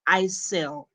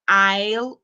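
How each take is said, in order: First: The word is said with an S sound. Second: The word is said with no S sound. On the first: The speaker calls it wrong. "instead of" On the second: The speaker calls it right. "you kill the S completely"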